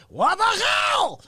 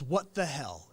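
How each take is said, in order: First: Very high, loud, drawn-out scream in Russian accent. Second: Said in the usual way. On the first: Shown as a demonstration. Showing off his vocal bit, screamed in Russian accent. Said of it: "I coupled that with a Russian accent". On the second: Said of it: "I came up with this".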